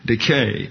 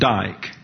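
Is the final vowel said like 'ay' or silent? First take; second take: ay; silent. First: The final vowel is said like 'ay'. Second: The final vowel is silent, one syllable. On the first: The speaker calls it right. "pronounced as if it were an English long A" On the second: The speaker calls it wrong. "That's not dike"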